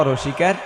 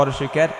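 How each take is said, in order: The two takes are said the same way.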